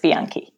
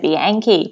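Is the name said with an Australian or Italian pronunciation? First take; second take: Italian; Australian. First: It is pronounced with an Italian accent. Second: It is pronounced with an Australian English accent. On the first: The speaker calls it right. "but it's Bianchi" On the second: The speaker calls it wrong. "I'm boganizing the Italian too. So I say Bianchi"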